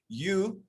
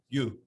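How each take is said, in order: First: It sounds like the English word, lifted up. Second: It is said lower, with the sound dropping down. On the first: The speaker calls it wrong. "it's not you, like the word you" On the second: The speaker calls it right. "It's almost like your pronunciation is dropping down"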